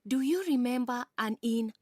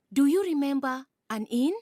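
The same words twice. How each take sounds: First: Said in the usual way. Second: "Do you remember an inn?" louder, rising at "inn"; second take of the refrain, louder with a rising end on "inn"; louder rising repeat. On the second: Acted. Repeated refrain in recited poem.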